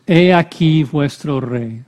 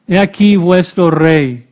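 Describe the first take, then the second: First: Said in the usual way. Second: Louder, emphatic mock proclamation. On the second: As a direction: present the king with a touch of ridicule. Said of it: "Va a hacerlo burlándose de los judíos". (con tono de burla)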